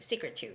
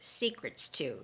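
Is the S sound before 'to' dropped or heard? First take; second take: dropped; heard. First: The S sound before 'to' is left out. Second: The S sound before 'to' is clearly pronounced. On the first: "This is when I don't make the S sound" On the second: "This is when I make the S sound"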